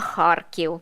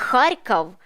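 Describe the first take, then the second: First: The name has its Ukrainian pronunciation. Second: The name has its Russian pronunciation. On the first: "а" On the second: "не"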